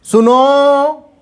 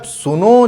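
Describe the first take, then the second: First: "सुनो" called high and loud, the नो held very long; calling out. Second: "सुनो" raised with a rising end; a shorter call of सुनो. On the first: Teacher demonstrates calling someone, long सुनो. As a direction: call सुनो across a distance, stretching नो. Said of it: "जैसे कभी किसी को बुलाते हैं". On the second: Teacher repeats the call सुनो while explaining. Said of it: "काफ़ी देर तक नो पे हम लोग स्ट्रेस देते हैं". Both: Shown as a demonstration.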